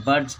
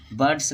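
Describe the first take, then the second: First: बर्ड्स ending in a voiced J/Z sound; correct plural ending. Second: बर्ड्स ending in an S hiss; wrong plural ending. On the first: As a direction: say बर्ड्स as "burdz". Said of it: "इसको जॉ पढ़ते हैं". (बर्ड्स के अंत में ज़ की आवाज़) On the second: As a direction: say बर्ड्स with a plain S at the end. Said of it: "नहीं बोलते हैं इसको". (बर्ड्स के अंत में स की आवाज़) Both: Shown as a demonstration.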